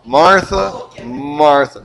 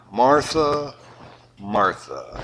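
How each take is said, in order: First: Put-on a parent calling a kid in trouble; scolding parent. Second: Soft, falling double name; gently chide, second name dropping away; gentle Jesus. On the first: Parent scolding a child by name twice. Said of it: "You say your name twice". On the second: Retold or imitated. Jesus gently correcting busy Martha. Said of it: "Jesus replied".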